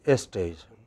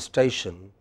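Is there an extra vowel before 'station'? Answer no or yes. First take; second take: yes; no. First: An extra vowel comes before the s sound. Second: The word starts directly with the s sound. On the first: "we add an extra E" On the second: "we don't say station"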